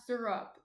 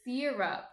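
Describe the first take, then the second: First: "syrup" said as SIR-up; an r-coloured first vowel in "syrup", no ee; rejected pronunciation. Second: "syrup" said as SEER-up; long stressed ee opening "syrup"; Jersey pronunciation. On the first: Showing the guys the wrong way, "syrup" as SIR-up. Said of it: "It's not syrup". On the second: Showing the guys her way, "syrup" as SEER-up. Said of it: "It's syrup". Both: Shown as a demonstration.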